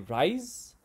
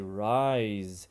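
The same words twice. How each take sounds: First: The word ends with a voiceless s sound. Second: The word ends with a voiced z sound. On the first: The speaker calls it wrong. "We don't say rise" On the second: The speaker calls it right. "we say rise"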